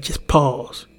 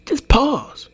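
First: "just pause" said slowly and evenly, at ordinary pitch; slow, calm advice. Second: "Just pause" thrown out much higher, with "pause" hit hard; urgent command. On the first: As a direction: draw out "just pause" gently like settled advice. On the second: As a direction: snap "Just pause" high like a sharp warning. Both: Shown as a demonstration. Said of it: "If you ever wanna react with violence".

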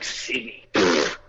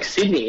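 First: Low, quiet scoff; dismissive echo. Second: Said in the usual way. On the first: Retold or imitated. Doubter hears the traveller's home city, quiet dismissive scoff. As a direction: repeat it under your breath, then puff it away.

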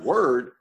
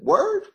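First: Said in the usual way. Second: Higher and louder rising "Word?"; cellmate's puzzled street slang; street slang question. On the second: Retold or imitated. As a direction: fling "Word?" up high as a question.

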